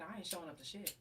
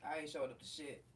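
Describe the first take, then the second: First: Said in the usual way. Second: Low, settled refusal; I ain't showing up to shit, said low and final; firm refusal. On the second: Real, not acted. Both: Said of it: "repeats same words".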